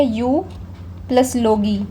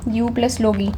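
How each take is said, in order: First: यू, a pause, then plus लोगी; यू ... plus लोगी said as separate chunks; split into parts. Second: Said in the usual way. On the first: Shown as a demonstration. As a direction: break यू off from plus लोगी with a clear gap. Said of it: "ऐसे कर लो, यू plus लोगी". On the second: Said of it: "ऐसे कर लो".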